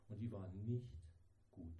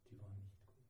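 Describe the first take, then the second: First: Said in the usual way. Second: "Die war nicht gut" said again much softer; soft, heavy echo of the line; quiet repeat. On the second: Real, not acted. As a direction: drop the voice to almost nothing on the repeat.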